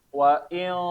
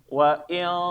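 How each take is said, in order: The two takes are said the same way.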